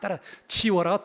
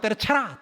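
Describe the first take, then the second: First: It is said in full standard Korean. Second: It is said in clipped Gyeongsang dialect.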